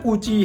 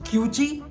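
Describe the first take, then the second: First: The first syllable has no 'y' glide: koo. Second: The first syllable has a 'y' glide: kyoo. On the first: This follows the spelling of the name. "But spelling तो कूची है उसकी" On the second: This is how the name is actually pronounced. "I think it's pronounce as क्यूची"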